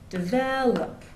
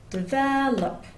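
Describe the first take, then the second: First: The stress is on the second syllable. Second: The stress is on the second syllable.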